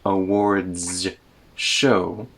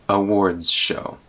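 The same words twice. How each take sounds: First: A separate z sound is heard before sh. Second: A d sound blends straight into sh. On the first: The speaker calls it wrong. "We don't have a separate z sound in the middle" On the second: The speaker calls it right. "The D sound comes before the sh sound"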